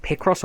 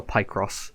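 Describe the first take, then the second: First: "Picross" said as PICK-ross; short-i pronunciation. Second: "Picross" said as PIE-cross; long-i pronunciation. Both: Shown as a demonstration. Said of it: "how you pronounce it".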